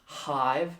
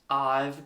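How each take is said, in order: First: The word begins with an h sound. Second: The word begins directly with the vowel. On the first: The speaker calls it wrong. "Not hive, no" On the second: The speaker calls it right. "so suck in"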